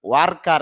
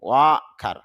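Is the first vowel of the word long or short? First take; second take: short; long. First: The first vowel is not drawn out. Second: The first vowel is drawn out long. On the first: The speaker calls it wrong. "ওয়ার্কার এরকম না" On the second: The speaker calls it right. "এখানে অ দীর্ঘ হবে"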